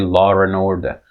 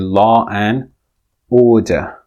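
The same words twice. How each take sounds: First: An r sound joins 'law' and 'and'. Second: No r sound joins 'law' and 'and'. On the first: "British English speakers actually insert an R" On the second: "in British English, it should be law and order"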